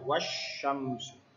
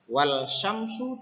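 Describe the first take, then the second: First: The L merges into the following sh sound. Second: An L sound is heard before syamsu. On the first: "alnya hilang" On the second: "Wal syamsu dibaca wasyamsu"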